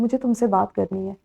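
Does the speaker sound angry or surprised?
angry. It is said in an angry tone. "हम इसे गुस्से में इस तरह से अदा करते हैं"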